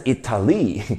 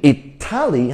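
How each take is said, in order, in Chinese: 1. 重音在第三个音节。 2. 重音在第二个音节。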